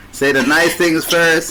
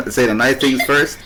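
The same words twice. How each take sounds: First: Slowed-down pointed "Say the nice things first"; slow, emphatic "Say the nice things first". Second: Said in the usual way. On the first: Shown as a demonstration. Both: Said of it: "you remind me".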